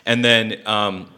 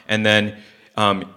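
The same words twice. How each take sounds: The two takes are said the same way.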